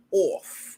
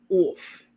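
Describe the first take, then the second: First: "Off." with a drawn New York aw; New York accent. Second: Said in the usual way. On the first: Shown as a demonstration. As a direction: say "Off." like a New Yorker. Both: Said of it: "Y'all heard my New York accent come out?".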